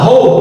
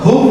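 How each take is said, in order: First: The vowel is an oh sound. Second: The vowel is a long oo sound. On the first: The speaker calls it right. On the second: The speaker calls it wrong. "হুপ না"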